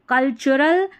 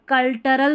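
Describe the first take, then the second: First: The middle consonant is a 'ch' sound. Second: The middle consonant is a plain 't' sound. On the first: The speaker calls it right. "टी यू को यहां पर च पढ़ा जा रहा है" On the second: The speaker calls it wrong. "कल्टरल भी नहीं पढ़ना है"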